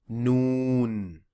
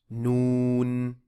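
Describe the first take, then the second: Both takes have the same delivery.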